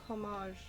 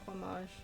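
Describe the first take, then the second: First: The h at the start is pronounced. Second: The h at the start is silent. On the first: The speaker calls it wrong. "Did you say um, homage" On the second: The speaker calls it right. "instead of homage"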